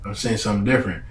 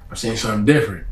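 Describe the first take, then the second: No difference in how they are said.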